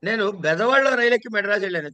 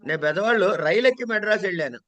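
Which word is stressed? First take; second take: బెదవాడలో; rail. First: The word 'Bezawadalo' is stressed. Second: The word 'railu' is stressed. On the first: The train was boarded in this town, not another. "బెదవాడ stress" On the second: The journey was by train, not another vehicle. "అది railway stress"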